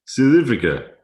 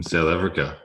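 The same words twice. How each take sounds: First: Put-on "South Africa" as "Sith Efrica", higher and louder in a South African accent; playful South African accent, pitched up. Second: Said in the usual way. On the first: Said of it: "I do a very good accent from South Africa". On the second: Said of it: "I like South African accents".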